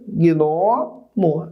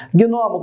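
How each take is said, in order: First: "Gnomo" drawn out as gno, mo; separado em sílabas. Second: Said in the usual way. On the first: Shown as a demonstration. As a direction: split "Gnomo" into two slow syllables, gno and mo. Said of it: "essa daí é a separação correta". ("Gnomo" pausado: gno, mo) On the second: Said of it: "como é que fica?".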